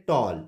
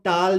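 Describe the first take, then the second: First: टॉल with a rounded 'aw'; correct vowel. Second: टाल with a long open 'aa'; wrong vowel. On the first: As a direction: say टॉल with 'aw', not 'aa'. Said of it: "इसको पढ़ेंगे". (टॉल में 'ऑ' की गोल आवाज़) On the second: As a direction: say टाल with 'aa', as the mistaken reading. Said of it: "नहीं पढ़ेंगे". (टाल में 'आ' की आवाज़) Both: Shown as a demonstration.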